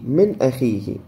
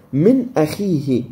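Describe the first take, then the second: First: Said in the usual way. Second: Slow Quranic recitation of من أخيه; slow tajweed recitation. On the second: Shown as a demonstration. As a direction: draw out من أخيه slowly and clearly, recited with a firm, measured izhar. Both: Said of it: "خلينا نشوف شنو حكم هاي".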